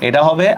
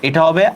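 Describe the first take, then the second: The two takes are said the same way.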